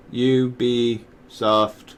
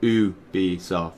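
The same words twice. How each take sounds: First: "Ubisoft" with an English YOU at the start; slow, spelled-out YOU-bee in "Ubisoft"; wrong Ubisoft pronunciation. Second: "Ubisoft" with OO at the start; slow OO-bee in "Ubisoft", no Y sound; French Ubisoft pronunciation. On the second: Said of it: "it's pronounced Ubi". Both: Shown as a demonstration.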